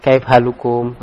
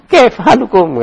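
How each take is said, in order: First: "Kaif halukum" low-key, without any lift; listless demo, "Kaif halukum" left unaccented; limp intonation. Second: "Kaif" pitched high with flair; animated questioning greeting, high on "Kaif"; stylish intonation. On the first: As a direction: say "Kaif halukum" weakly, with no flair. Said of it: "Apa lemek gitu". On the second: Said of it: "ya kayak bergaya gitu". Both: Shown as a demonstration.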